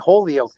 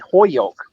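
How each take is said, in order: First: The L sound is clearly pronounced. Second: The L sound is almost dropped. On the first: This is how outsiders say it. "people from Holyoke don't say Holyoke" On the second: This is how locals say it. "they say Hoyoke. So they almost take the L out"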